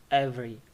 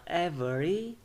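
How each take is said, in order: First: Every in two syllables, ev-ry; dropped syllable. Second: Every in three syllables, ev-e-ry; full syllables. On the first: Teacher showing what it becomes, every as ev-ry. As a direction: skip the middle e of every. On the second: Teacher showing the full form, every in three syllables. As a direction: sound the middle e of every. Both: Shown as a demonstration. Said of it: "becomes every".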